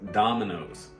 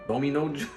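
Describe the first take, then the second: First: The word ends with an s sound. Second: The word ends on a vowel, without s. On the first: The speaker calls it right. "Don't forget the S sound" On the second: The speaker calls it wrong. "It's not Domino"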